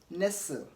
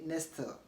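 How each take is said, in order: First: The T sound is silent in the middle. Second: A T sound is pronounced in the middle. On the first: The speaker calls it right. "but nestle" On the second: The speaker calls it wrong. "You don't want to say nestle"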